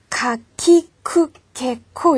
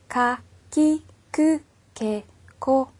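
First: 카, 키, 크, 개, 코 pushed hard with a big puff of air; over-strong aspiration. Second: Said in the usual way. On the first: Shown as a demonstration. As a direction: exaggerate the aspirated k in 카, 키, 크, 개, 코. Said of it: "이렇게 세게 발음을 하시는". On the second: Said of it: "키역자음하고 비슷한 소리".

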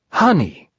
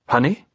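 First: Higher-pitched, sure little bear voice; Pooh's suggestion. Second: HONEY as a question, rising at the end; doubtful echo. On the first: Pooh suggesting bait for the trap, confident higher voice. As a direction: offer HONEY high, falling at the end. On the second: Narrator querying Pooh's bait, HONEY with a doubtful rise. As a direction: echo HONEY in your own pitch, lifting doubtfully. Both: Acted.

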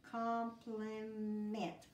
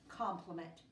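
First: Compliment drawn out slowly, every syllable clear; teacher blending a long word; slow blended word. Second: Said in the usual way. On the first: Shown as a demonstration. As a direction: stretch Compliment out as you blend it.

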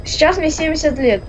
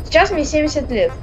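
Both takes have the same delivery.

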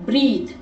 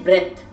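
First: બ્રીથ with a long 'ee' vowel; pronunciation demo. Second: બ્રેથ with an 'e' as in bed; pronunciation demo. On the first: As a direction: say બ્રીથ to rhyme with 'seethe'. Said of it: "એનો ઉચ્ચાર થશે બ્રેથ". (બ્રીથ, લાંબા 'ઈ' સાથે) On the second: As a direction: say બ્રેથ to rhyme with 'death'. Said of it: "એનો ઉચ્ચાર થશે". (બ્રેથ, 'એ'ના ઉચ્ચાર સાથે) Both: Shown as a demonstration.

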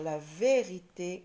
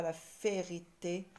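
First: "vérité" with a voiced v; correct V sound. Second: "férité" with unvoiced f replacing v; wrong-letter reading "férité", f for v; wrong F sound. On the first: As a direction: buzz the first sound of "vérité". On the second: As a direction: blow an f to open "férité". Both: Shown as a demonstration. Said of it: "et non pas la férité".

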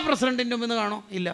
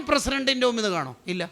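The two takes are said the same way.

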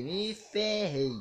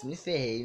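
First: "me ferrei" very slow and higher; slow-motion "me ferrei" of doom; drawn out. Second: Said in the usual way. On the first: Retold or imitated. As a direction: stretch each syllable of "me ferrei". Repete a frase, agora arrastada.

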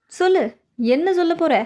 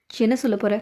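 First: Demanding. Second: Said in the usual way. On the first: Acted. Impatient, demanding the explanation, raised voice. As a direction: push them to answer now.

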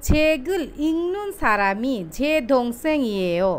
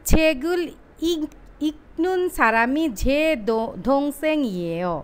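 First: ইংনুন with the k turned into a nasal ng; slow careful Korean, say ইংনুন as ing-nun; ইংনুন with an ng sound before the n; correct pronunciation. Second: Slow letter-by-letter Korean, ইকনুন with a clear k stop; ইকনুন pronounced ik-nun, not nasalised; spelled-out reading. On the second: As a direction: read ইকনুন with a hard k as written. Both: Shown as a demonstration. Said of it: "কিন্তু এটা আসলে উচ্চারিত হবে".

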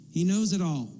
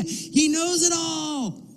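First: Said in the usual way. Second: Very high, drawn-out cry; emphatic exclamation. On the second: Real, not acted. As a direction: stretch it out high as the climax of the point. Preacher's climactic emphatic exclamation.

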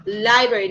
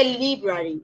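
First: "library" opening on "lie"; correct library. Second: "library" opening on "lee"; wrong library. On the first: Teacher repeating the right form, library starting with lie. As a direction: say library with an eye vowel. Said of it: "se dice library". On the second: Teacher showing what to avoid, library starting with lee. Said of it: "no se dice library". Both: Shown as a demonstration.

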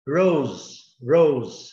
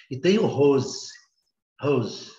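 First: Rose with a curled English r, louder. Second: Rose said with a breathy h, as hose; h sound, hose. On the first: Teacher demonstrates rose as the flower. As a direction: curl the r of rose, not a throaty h. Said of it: "Vocês estão vendo aí a pronúncia?". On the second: Teacher contrasts the garden hose with the flower. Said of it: "que é a mangueira". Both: Shown as a demonstration.

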